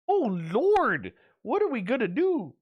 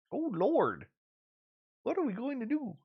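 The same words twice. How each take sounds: First: High, louder hammed-up old-lady wail; loud take of a mock churchy lament; mock fretting granny. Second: High, softer lightly voiced old lady; quiet echo of the mock lament; softer mock fretting. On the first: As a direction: throw up your hands like a scandalized grandma. Mimicking Gail's shocked reaction. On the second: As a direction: murmur it like a worried granny to herself. Repeats Gail's lament softer.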